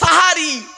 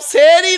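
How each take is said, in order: First: The first vowel is an a sound. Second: The first vowel is an e sound. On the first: The speaker calls it right. "দন্তেশয় আকার" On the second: The speaker calls it wrong. "সেরি নয় শব্দটা"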